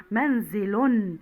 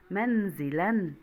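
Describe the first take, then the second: First: Very slow منزل ending in -un; تنوين بالضم. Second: Slow منزلا ending in -an; تنوين بالفتح. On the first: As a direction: draw out منزل to a final -un. (نطق منزل ببطء بضمتين في آخرها) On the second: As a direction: draw out منزلا to a final -an. (نطق منزلا ببطء بفتحتين في آخرها) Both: Shown as a demonstration. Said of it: "صوب الخطأ كالمثال".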